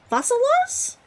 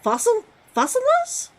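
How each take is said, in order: First: "Fossilos" said cleanly as FOSS-uh-los, ending in a high questioning rise; retry "Fossilos" smoothly, pitch climbing high; second pronunciation try. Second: "Fossilos" sounded out as FOSS-uh-los, pitch rising high into a question; tentative pronunciation try. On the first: Streamer retrying "Fossilos" for chat, unsure, high rise. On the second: Streamer guessing how to say "Fossilos" to chat, hesitant and rising. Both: Shown as a demonstration. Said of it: "It's pronounced as".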